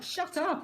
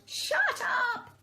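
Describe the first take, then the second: First: Shouting. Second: Much higher angry shout; hammed-up neighbour yell. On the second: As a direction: yell from the windows at the dog. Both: A narrator's reading. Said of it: "people lean out to shout".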